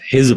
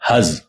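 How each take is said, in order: First: The first vowel is an 'i' sound. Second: The first vowel is an 'a' sound. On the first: The speaker calls it wrong. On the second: The speaker calls it right.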